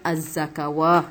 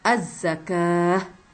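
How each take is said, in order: First: A 'w' sound comes before the final syllable. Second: No 'w' sound comes before the final syllable. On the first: The speaker calls it wrong. "ingat bukan az-zakawah" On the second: The speaker calls it right. "jadi kita bacanya az-zakah"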